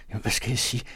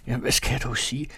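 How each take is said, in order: First: Slightly raised, anxious gardener's plea; asking helplessly, unsure how to break the news; breathless fright. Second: Faster and more urgent; rushing the words out in rising panic; panicked fright. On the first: (forpustet og bange, lidt højere) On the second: (hurtigt og panisk, stigende tone) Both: A narrator's reading. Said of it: "ganske bleg og forpustet løbende".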